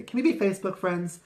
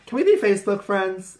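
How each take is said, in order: First: High, quick chirpy question; bright friendly ask. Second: High, eager chirpy question; bright friendly ask. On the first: Recruiting people, a high quick friendly ask. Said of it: "I say". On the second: To a new girl she met, a high eager ask. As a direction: pitch it way up, sweet and friendly. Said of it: "my first question is always like". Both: Retold or imitated.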